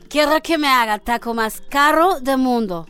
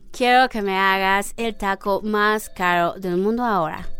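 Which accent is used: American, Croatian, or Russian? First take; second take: Russian; American. First: It is said in a Russian accent. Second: It is said in an American gringo accent.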